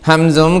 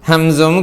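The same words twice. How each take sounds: No difference in how they are said.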